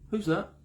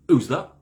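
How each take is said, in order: First: It sounds calm and friendly. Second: It sounds pressurizing and condescending.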